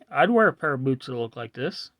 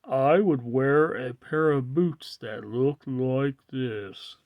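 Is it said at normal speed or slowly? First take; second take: normal speed; slowly. First: It is said at normal speed. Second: It is said slowly.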